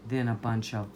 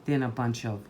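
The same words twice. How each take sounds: The two takes are said the same way.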